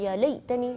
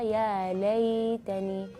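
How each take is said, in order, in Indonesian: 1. Bunyi ya dibaca pendek, seperti kasra. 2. Bunyi ya ditahan dengan lembut dan halus. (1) "jangan baca" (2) "tapi baca"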